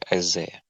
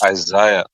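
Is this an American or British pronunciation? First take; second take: American; British. First: It is said with an American pronunciation. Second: It is said with a British pronunciation. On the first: "Americans say uh" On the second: "British say"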